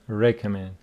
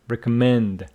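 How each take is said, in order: First: The main stress falls before the last syllable. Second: The main stress falls on the last syllable. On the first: The speaker calls it wrong. "So it's not recommend" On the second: The speaker calls it right. "the stress on the final syllable"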